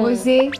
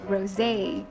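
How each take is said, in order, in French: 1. Il se prononce avec des sons français. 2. Il se prononce avec des sons anglais.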